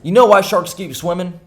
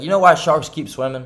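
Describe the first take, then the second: First: Louder, higher attempt at a mobster's New Jersey accent; half-successful New Jersey wiseguy accent, pitched up; Tony Soprano accent. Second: Said in the usual way. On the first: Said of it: "Tony's accent". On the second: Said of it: "try and say in t-, Tony's accent".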